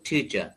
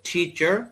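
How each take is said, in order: First: It is said in a British accent. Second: It is said in an American accent. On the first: "ব্রিটিশরা বলবে টিচার" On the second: "আমেরিকানরা বলবে টিচার"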